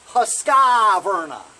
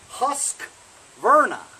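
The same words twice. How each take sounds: First: An extra 'i' vowel is heard between q and v. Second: No vowel is heard between the q and v. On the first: The speaker calls it wrong. "not Husqvarna. There's no I in between the Q and the V" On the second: The speaker calls it right. "It's Husqvarna"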